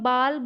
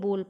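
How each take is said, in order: First: The vowel is an open 'aa' sound. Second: The vowel is a closed 'o' sound. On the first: "या तो मैं बाल बोल पा रही हूँ इसको" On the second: "या फिर मैं इसको बोल बोल पा रही हूँ"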